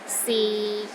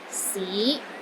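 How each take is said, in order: First: The pitch stays low and steady. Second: The pitch rises from low to middle. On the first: It means is. "low and steady, but not as low as the fourth tone" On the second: It means city. "It starts low, then rises to the middle of your range"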